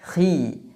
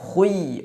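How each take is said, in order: First: The syllable is only slightly heavy, with an i-vowel. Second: The syllable is fully heavy, with a u-like glide. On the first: The speaker calls it right. "dalam kondisi kasrah khi" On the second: The speaker calls it wrong. "tidak dibaca khui"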